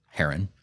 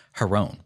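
First: Heron said as HAIR-un; alternative pronunciation. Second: Heron said as huh-ROHN; alternative pronunciation. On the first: Giving the other way to say the name, heron as HAIR-un. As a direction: stress the first syllable of heron, short unstressed second. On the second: Giving the mythological name, Heron as huh-ROHN. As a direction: say Heron with stress and a long O on the second syllable. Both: Shown as a demonstration. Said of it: "Sometimes pronounced heron".

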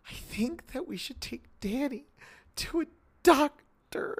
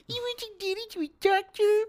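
First: Small high voice, slowly easing the suggestion out; Shelley's pleading line. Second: Very high, squeaky mock of a wife's plea; exaggerated sing-song falsetto, jeering; mocking mimicry. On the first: Retold or imitated. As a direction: imitate a timid wife, high-pitched and halting. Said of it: "The way Shelley delivers this line". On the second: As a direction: parrot the words back in a cruel falsetto. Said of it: "he, like, mocks her".

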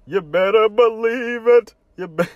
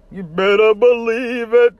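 First: [name] impression. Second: High, loud put-on rapper voice; [name] impression. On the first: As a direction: repeat the catchphrase in character. Repeat of catchphrase. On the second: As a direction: shout the catchphrase like [name]. [name] catchphrase imitated.

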